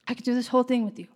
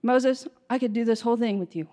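First: Rushed repeat. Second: Said in the usual way. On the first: Acted. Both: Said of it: "And the Lord's like".

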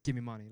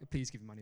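First: Imitating a hostile demand; blunt demand. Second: Said in the usual way. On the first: Hostile young man to the preacher offering prayer, blunt demand. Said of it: "Like, like, not like". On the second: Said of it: "not like".

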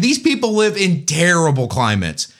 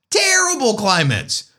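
First: Said in the usual way. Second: "Terrible climates" said much higher, weight on "Terrible"; emphatic repeat. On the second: Shown as a demonstration. Vlogger hammering home the Russian weather, emphatic. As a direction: lean hard into "Terrible" on the repeat.

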